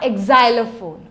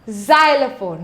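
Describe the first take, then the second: First: The word starts with an added vowel sound. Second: The word starts directly without an added vowel. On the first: The speaker calls it wrong. "not exylophone" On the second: The speaker calls it right. "you pronounce it xylophone"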